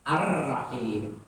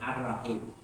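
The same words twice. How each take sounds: First: The r sound is doubled and held. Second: The r sound is short and single. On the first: The speaker calls it right. "tasdid pada kalimat terakhir di atas huruf ra" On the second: The speaker calls it wrong. "tidak boleh"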